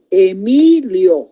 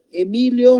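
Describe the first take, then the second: First: "Emilio" drawn out, the "mi" lengthened; slow syllable-by-syllable. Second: Said in the usual way. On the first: Shown as a demonstration. Teacher presenting "Emilio" as an example, slowly by syllables. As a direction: sound out "Emilio" slowly for the class. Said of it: "E, una sílaba". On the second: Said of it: "no tiene ningún acento".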